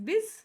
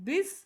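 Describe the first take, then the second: The two takes are said the same way.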